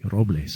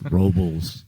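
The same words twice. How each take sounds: First: It is said with a Spanish pronunciation. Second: It is said with a local American pronunciation. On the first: "I really stress on my pronunciations" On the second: "You just kind of put like rocks in your mouth"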